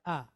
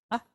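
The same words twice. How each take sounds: First: "ah" held as an open, drawn-out vowel; long ah. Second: "ah" cut very short. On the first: Teacher contrasting vowel lengths, long "ah". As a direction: draw "ah" out longer. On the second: Teacher contrasting vowel lengths, short "ah". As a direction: say "ah" as a quick, abrupt vowel. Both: Shown as a demonstration. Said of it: "You hear the difference between the two".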